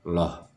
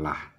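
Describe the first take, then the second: First: The syllable is heavy, with a rounded o-like vowel. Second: The syllable is light, with an open a vowel. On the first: The speaker calls it right. "pengucapannya adalah loh" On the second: The speaker calls it wrong. "bukan lah ya"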